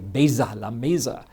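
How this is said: The consonant in 'giờ' sounds like z. The speaker is from the North. "they use a Z sound"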